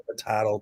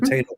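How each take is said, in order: First: Potato said as po-TAH-to; alternative pronunciation. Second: Said in the usual way. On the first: Shown as a demonstration. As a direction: say potato with an "ah" in the middle. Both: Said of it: "I don't know how to say it".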